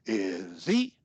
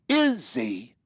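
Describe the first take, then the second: First: The pitch goes from low to high. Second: The pitch goes from high to low.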